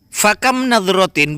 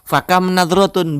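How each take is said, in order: First: The last word ends with an 'in' sound. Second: The last word ends with an 'un' sound. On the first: The speaker calls it right. "Jadi yang betul jer" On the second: The speaker calls it wrong. "bukan begitu"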